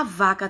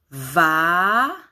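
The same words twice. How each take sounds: First: Said in the usual way. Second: "Vaca" as a rising long vaaa, pause, short ca; counting syllables. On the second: Shown as a demonstration. Teacher counts syllables with children, slow separated beats. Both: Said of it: "Vamos contar".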